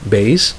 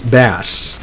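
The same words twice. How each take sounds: First: The vowel is a long A sound. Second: The vowel is a short A sound. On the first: It means the lowest musical range or an instrument. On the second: It means a type of freshwater fish.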